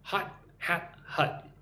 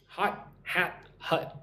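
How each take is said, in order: First: "Hot hat hut" slowly, vowels contrasted; slow careful "hot", "hat", "hut"; vowel drill again. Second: "Hot hat hut" slow, each vowel distinct; vowel drill. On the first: Teacher repeating the "Hot hat hut" drill slowly. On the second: Teacher drilling the vowels in "Hot hat hut" for learners. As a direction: stretch "hot", "hat", "hut" apart slowly. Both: Shown as a demonstration. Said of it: "Try saying that quickly".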